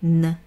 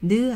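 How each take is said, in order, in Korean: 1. 모음이 없는 영어식 N입니다. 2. 모음이 있는 한국식 음절입니다. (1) "이런 소리가 납니다" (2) "느 아니고요"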